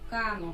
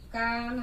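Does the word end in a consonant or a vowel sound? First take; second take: vowel; consonant. First: The word ends with an added final vowel. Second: The word ends on the bare consonant. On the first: The speaker calls it wrong. "হসন্ত যদি না দেই তাহলে উচ্চারণ হবে" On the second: The speaker calls it right. "এরকম তো হবে না, হবে"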